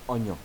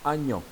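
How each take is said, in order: First: The first vowel is an "o" sound. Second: The first vowel is an "a" sound. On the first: It follows the older written form. "c'est avec le son O" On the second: It is how people say it nowadays. "aujourd'hui, quand on prononce le mot, on dit agnon"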